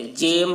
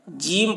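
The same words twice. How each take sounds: First: جیم with long e, "jaym"; مجہول pronunciation. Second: جیم with long ī, "jeem"; معروف pronunciation. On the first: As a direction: say جیم to rhyme with "name". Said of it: "اگر مجہول پڑھتے تو کیا پڑھتے". (جیم، یائے مجہول کے ساتھ) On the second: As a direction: say جیم to rhyme with "team". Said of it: "معروف پڑھا گیا ہے". (جیم، یائے معروف کے ساتھ) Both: Shown as a demonstration.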